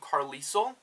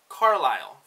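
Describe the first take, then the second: First: The S in the name is pronounced. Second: The S in the name is silent. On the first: The speaker calls it wrong. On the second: The speaker calls it right.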